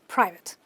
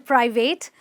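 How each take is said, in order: First: The last syllable has a short 'ih' vowel. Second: The last syllable has a full 'ay' vowel. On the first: The speaker calls it right. "It's simply" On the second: The speaker calls it wrong. "you do not want to call them"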